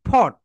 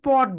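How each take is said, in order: First: The p is aspirated, with a puff of air. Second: The p is plain, with no puff of air. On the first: The speaker calls it right. "Right pronunciation যেটা হবে সেটা হবে ফট।" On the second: The speaker calls it wrong. "পট বলি, পট বলি। That is wrong."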